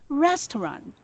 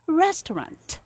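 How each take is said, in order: First: The final t sound is dropped. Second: The final t sound is pronounced. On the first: The speaker uses British English. "there is no letter T in British" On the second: The speaker uses American English. "in American English, they read it like this: ... there is letter T at the end"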